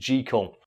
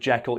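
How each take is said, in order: First: The name rhymes with treacle. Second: The name does not rhyme with treacle. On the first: The speaker calls it right. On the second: The speaker calls it wrong.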